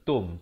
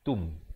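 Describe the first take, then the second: First: The vowel sounds like an 'o'. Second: The vowel sounds like an 'u'. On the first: The speaker calls it wrong. "bukan tum" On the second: The speaker calls it right. "T U M bukan T O M"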